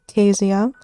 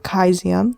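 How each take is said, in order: First: It is said with an ordinary English pronunciation. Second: It is said with a Latin-style pronunciation.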